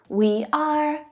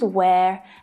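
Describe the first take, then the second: First: It is said as two full separate words. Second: It is said as one contracted syllable.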